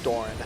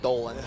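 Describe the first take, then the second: First: The middle consonant is a clear R sound. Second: The middle consonant is an L sound.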